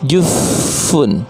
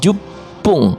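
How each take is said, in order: First: The middle consonant is an f sound. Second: The middle consonant is a long doubled p. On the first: The speaker calls it wrong. "bukannya jufun" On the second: The speaker calls it right. "tapi jupung, P-nya double"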